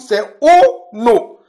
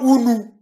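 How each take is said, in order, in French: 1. Les voyelles sonnent comme 'o'. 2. Les voyelles sonnent comme 'oo'. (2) "C'est pas Unu"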